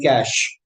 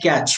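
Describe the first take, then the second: First: The word does not sound like catch or match. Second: The word sounds like catch, rhyming with match. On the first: The speaker calls it right. "we pronounce it like cache" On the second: The speaker calls it wrong. "We don't pronounce it like catch"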